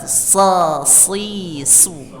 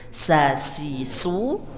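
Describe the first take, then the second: First: The s sounds are heavy and thick. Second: The s sounds are light and thin.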